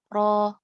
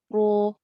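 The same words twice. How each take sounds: First: The ra is said with lips barely rounded. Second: The ra is said with lips pushed forward. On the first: The speaker calls it right. "yang benar adalah kedua bibir sedikit merapat" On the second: The speaker calls it wrong.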